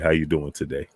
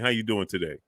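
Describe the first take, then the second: First: The voice is brought down to a lower pitch. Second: The voice is at its normal, higher pitch.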